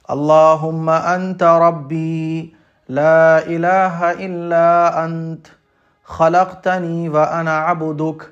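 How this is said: It is recited with breath pauses between phrases.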